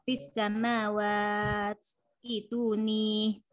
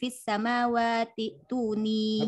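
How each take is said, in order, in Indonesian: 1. Kata samawat berakhir terputus sebelum kata berikutnya. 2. Kata samawat tersambung langsung ke kata berikutnya.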